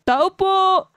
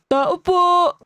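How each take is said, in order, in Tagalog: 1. Pinilit ang boses, parang lalaki ang pagkakasabi nito. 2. Pinilit ang boses, parang lalaki ang pagkakasabi nito.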